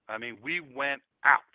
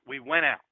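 First: "we went out" drawn out slowly, each word leaned on; slow down and press "went out" to make it sink in; slow stress on went out. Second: Said in the usual way. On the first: Shown as a demonstration.

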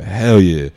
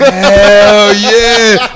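First: Said in the usual way. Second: HELL hollered high, loud and long; exultant yell, fully acted out; ecstatic shout. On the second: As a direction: shout it with all your joy. Acting out draft-call joy.

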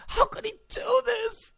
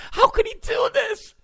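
First: Very high, softer, whiny; mock whimper. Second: Very high, shouted wail; mock outraged shriek. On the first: Host mocking reporters, very high soft whimper. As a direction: whimper it like a hurt child. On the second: Host mocking reporters, shrieking very high. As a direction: wail it like a betrayed fan.

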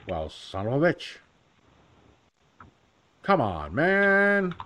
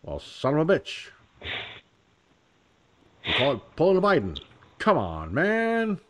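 First: Lightly voiced Biden, man jumping high; a cheesy folksy grumble; Biden impression. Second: Lightly voiced Joe Biden, a touch higher; a cheesy nod to Biden's folksy grumble; Biden impression. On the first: Shown as a demonstration. Vlogger demoing his easy Biden, lightly voiced. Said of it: "Joe Biden's an easy one". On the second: Vlogger imagining Biden hearing the joke, light impression. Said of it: "he'd be like".

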